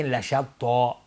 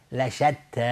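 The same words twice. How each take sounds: First: لشتا with thick t and dark o-like ending; wrong heavy t. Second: لشتی with thin t, mouth opening; light ta. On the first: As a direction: show the mistaken emphatic t in لشتا. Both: Shown as a demonstration.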